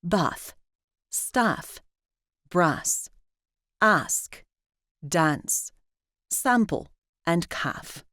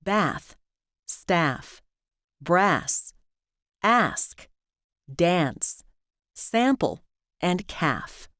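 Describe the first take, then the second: First: British "ah" of "palm" in "bath", "staff", "dance"; "bath, staff, brass" the British way, vowel as in "spa"; British broad A. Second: American vowel of "cat" in "bath", "staff", "dance"; American short A. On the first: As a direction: say "bath", "ask", "calf" with the open back A of "father". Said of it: "In British English, we use it in words like". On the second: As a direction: say "bath", "ask", "calf" with the front A of "trap". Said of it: "In American English, we also use it in words like". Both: Shown as a demonstration.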